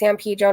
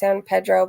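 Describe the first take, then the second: First: It is pronounced the way local residents say it. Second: It is pronounced the way outsiders say it. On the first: This is how people who live there say it. The speaker calls it right. "That's how people pronounce it there" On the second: This is how people who don't live there say it. The speaker calls it wrong. "not San Pedro"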